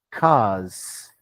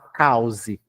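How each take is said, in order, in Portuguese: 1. Um único som de vogal é pronunciado na palavra. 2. Duas vogais separadas são pronunciadas na palavra. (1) "Você tem que falar cause" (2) "Você não pode falar cause"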